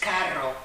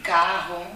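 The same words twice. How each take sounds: First: The r is said the Spanish way. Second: The r is said the Portuguese way. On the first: "y aquí es carro" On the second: "en portugués es cigarro, carro"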